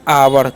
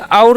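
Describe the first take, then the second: First: The word is said as two syllables. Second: The word is said as one short syllable. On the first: The speaker calls it right. "तो हो गया आवर" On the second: The speaker calls it wrong. "इसे और नहीं पढ़ना है"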